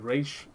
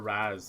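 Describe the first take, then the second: First: The name ends with an 'ish' sound. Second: The name ends with an 'az' sound. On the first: "as if the apostrophe was an I" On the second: "It's pronounced like Raz, bro, right? Razmataz"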